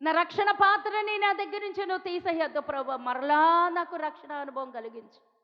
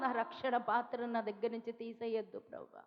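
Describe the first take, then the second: First: Full-voiced imitated plea, slowing at the end; pleading prayer, no longer hushed; fuller pleading. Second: Softer, hushed pleading prayer; a quiet, imitated plea to God; mild tearful plea. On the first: David crying to God in the psalm, fuller plea. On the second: David begging God in the psalm, softly pleading. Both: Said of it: "దావీదు కీర్తనలో ఏడుస్తాడు".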